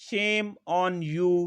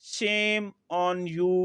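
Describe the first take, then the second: Both takes have the same delivery.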